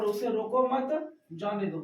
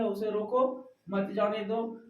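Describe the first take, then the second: First: रोको मत in one go, break, जाने दो falling; pause after मत. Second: Slight break after a rising रोको, मत जाने दो together; pause after रोको. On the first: Teacher showing the comma changing the meaning, pause after मत. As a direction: join मत to रोको, pause, then let जाने दो drop. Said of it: "अल्प विराम जब मत के बाद आ जाता है". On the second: Teacher explaining how a comma means stopping, pause after रोको. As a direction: end the phrase on रोको, then say मत जाने दो. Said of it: "यहाँ पर रुकने की बात की जा रही है". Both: Shown as a demonstration.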